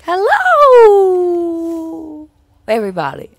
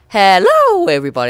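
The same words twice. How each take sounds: First: The greeting is said in a howling voice. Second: The greeting is said in a plain voice. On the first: "I do like a howling" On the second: "instead of saying just"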